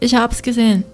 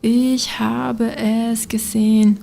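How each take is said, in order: First: The words run together in a contracted form. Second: Every word is said separately in full. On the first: The speaker calls it right. "notice the contraction" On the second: The speaker calls it wrong. "Instead of saying this whole thing"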